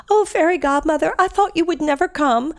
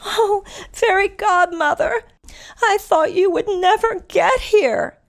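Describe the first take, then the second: First: High, louder Cinderella voice. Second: Put-on high, slow, breathless girlish Cinderella voice. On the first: Retold or imitated. Cinderella retold to listeners, higher and louder. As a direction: call out up high like the relieved princess. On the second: Cinderella greeting her fairy godmother, high and slow.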